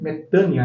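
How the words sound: It is said the way Greek speakers say it. "os gregos pronunciam metânia"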